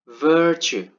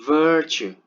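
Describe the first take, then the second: The two takes are said the same way.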